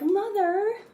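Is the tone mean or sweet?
sweet. It is said in a sweet, gentle tone.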